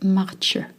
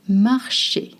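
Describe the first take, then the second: First: The middle consonant is not a sh sound. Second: The middle consonant is a soft sh sound. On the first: The speaker calls it wrong. "not marcher" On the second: The speaker calls it right. "with a sh sound"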